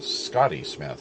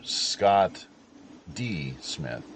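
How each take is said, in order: First: The name is said fast, running together. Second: The name is said at a normal pace.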